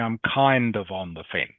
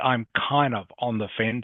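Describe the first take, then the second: First: The final D of kind is clearly pronounced. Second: The final D of kind is left out. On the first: The speaker calls it right. "You must say" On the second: The speaker calls it wrong. "you can't say"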